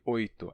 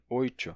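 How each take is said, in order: First: The t is a plain t sound. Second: The t is hissed like a ch sound.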